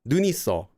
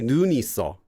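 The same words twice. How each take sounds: First: The first vowel is kept short. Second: The first vowel is held long. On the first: The speaker calls it right. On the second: The speaker calls it wrong.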